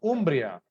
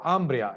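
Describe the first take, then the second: First: It is said with an Italian pronunciation. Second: It is said with an English pronunciation.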